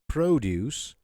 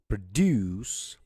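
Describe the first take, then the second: First: The stress is on the first syllable. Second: The stress is on the second syllable. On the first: It is a noun for farm goods. "we're stressing the first part, okay, the first syllable" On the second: It is a verb meaning to make. "produce is a verb because we're stressing the second part, juice part"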